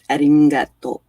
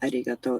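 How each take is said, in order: First: The g is softened into a nasal ng. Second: The g is said as a hard g. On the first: "their G's are like a ng" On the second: "arigato is not arigato"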